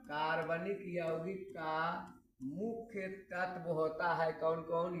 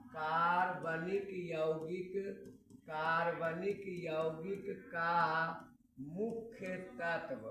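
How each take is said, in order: First: Said in the usual way. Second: Slow, word by word, for students to write down; slow dictation. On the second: Shown as a demonstration. Teacher dictating a topic to students, slow and spaced. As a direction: dictate it slowly so they can copy. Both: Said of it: "topic देने जा रहे हैं".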